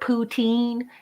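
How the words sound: It is said the American way.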